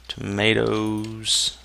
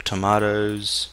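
First: Tomatoes with a long "ay" middle, toh-MAY-toes; American "tomatoes". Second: Tomatoes with a broad "ah" middle, tuh-MAH-toes; British "tomatoes". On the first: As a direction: draw out Tomatoes slowly, middle rhyming with "day". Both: Shown as a demonstration. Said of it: "depending on how you like to say it".

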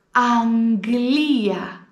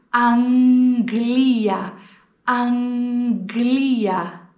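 First: Αγγλία with γγ as ng-g, slow; Αγγλία, nasal γκ in the middle; slow model word. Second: Αγγλία slow, γγ as γκ; Αγγλία drawn out, γκ clear; slow model word. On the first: Teacher models Αγγλία for learners, slow. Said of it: "εγώ πρόφερα Αγγλία και όχι Αγγλία". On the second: Teacher repeats the γκ word for students. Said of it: "τότε τα προφέρουμε γκ". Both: Shown as a demonstration.

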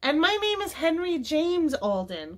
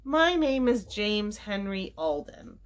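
First: High, proud-sounding exclamation; excited cry. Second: Slow, measured introduction; measured reply. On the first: Henry chiming in after his grandfather, excited cry. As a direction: call out the name, pitched high. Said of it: "cried Henry". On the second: Grandfather introducing himself to Violet, slow and measured. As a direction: state the name unhurriedly. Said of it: "replied her grandfather". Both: A narrator's reading.

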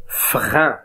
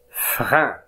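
First: "فغان" in French, nasal ending; model pronunciation. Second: "فغان" again, softer and falling; softer repeat. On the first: Teacher modelling a French nasal ending. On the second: Teacher repeating the example word for pupils. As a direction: echo "فغان" quietly. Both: Shown as a demonstration. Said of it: "أن مثل".

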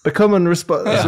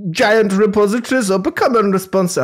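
First: Bad German accent with a French tinge; accent gone French. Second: Higher, wobbly fake German accent; mock German accent falling apart; slipping German accent. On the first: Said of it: "It's went a bit French". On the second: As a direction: try a German accent and lose it. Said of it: "I've lost the accent".

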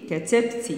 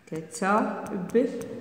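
First: Said in the usual way. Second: "كتبت" very slow and soft, in separate syllables; slow dictation. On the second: Shown as a demonstration. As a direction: quietly break "كتبت" apart with pauses.

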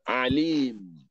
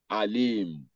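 First: Alim opening on a throat-squeezed Ain, long "ee". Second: Alim opening on a plain glottal-stop "a"; Alim with Hamza. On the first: Teacher differentiating Ain from Hamza, Alim with Ain. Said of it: "Ain with Hamza". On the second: Teacher contrasting it with the Ain form, Alim with Hamza. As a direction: start Alim with Hamza, no throat squeeze. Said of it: "Then with Hamza, that will be". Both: Shown as a demonstration.

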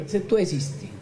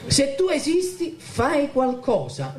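First: Said in the usual way. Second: Pitched high, pleading; desperate cry to God. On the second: Retold or imitated. Son crying out to God for his family, high and pleading. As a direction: throw the prayer up in desperation, slowing down. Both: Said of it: "gridai al Signore".

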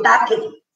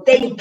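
First: "take" misread as tah-keh; sounded final E. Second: "take" as one syllable, tayk; silent final E. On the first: Teacher showing the error with silent E, "take" as tah-keh. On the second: Teacher correcting the silent E, "take" as tayk. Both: Shown as a demonstration. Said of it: "no suena la E".

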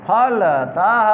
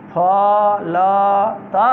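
First: फलतः said slowly with a rise; slow rising reading of फलतः; slow repeat. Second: फलतः stretched very slowly; very slow classroom reading of फलतः; very slow demo. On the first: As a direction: read फलतः again, slowly. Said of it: "teacher repeats word slowly". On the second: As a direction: draw फलतः out syllable by syllable. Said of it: "teacher models word very slowly". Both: Shown as a demonstration.

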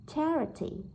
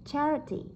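Both takes have the same delivery.

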